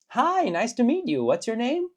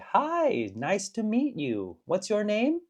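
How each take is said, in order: First: It is spoken at a faster, natural pace. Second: It is spoken at a slower, careful pace.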